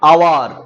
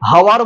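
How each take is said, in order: First: The word begins with a vowel sound. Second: The word begins with an h sound. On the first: The speaker calls it right. "এইচ উচ্চারিত হচ্ছে না" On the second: The speaker calls it wrong. "হাওয়ার বলছি না"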